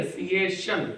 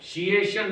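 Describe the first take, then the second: First: सिएशन said with a clear s, the right way; the right take, सिएशन; right s sound. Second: शिएशन said with a sh, as the wrong way; the wrong take, शिएशन; wrong sh sound. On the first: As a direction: correct it: सिएशन with s. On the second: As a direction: show the mistake: शिएशन with sh. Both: Shown as a demonstration. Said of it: "शिएशन नहीं है".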